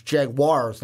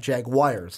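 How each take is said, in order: First: Jaguars said as Jag-wars; correct pronunciation. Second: Jaguars said as Jag-wires; accent pronunciation. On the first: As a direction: Jaguars with a clear wars ending. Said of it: "I learned from the comment section, it's Jaguars". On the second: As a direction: Jaguars with a wires ending, his own accent. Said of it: "like my accent likes to". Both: Shown as a demonstration.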